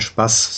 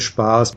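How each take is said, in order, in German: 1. Der Vokal a wird kurz gesprochen. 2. Der Vokal a wird lang gesprochen. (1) "in Deutschland, wo man Spaß sagt, dann Doppel-S" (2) "in Österreich sagen wir Spaß mit langem A"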